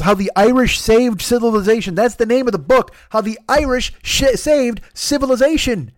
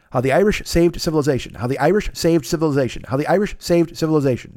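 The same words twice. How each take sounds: First: High excited title. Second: Said in the usual way. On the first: Real, not acted. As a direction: stumble over the title excitedly. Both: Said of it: "That's a hard thing to say".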